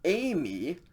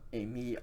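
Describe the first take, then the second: First: The stress is on the first syllable. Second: The stress is on the second syllable. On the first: It means I will go. "if there is a circumflex accent over the first iota, then you pronounce it Amy" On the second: It means I am. "A me with the acute accent on the second iota"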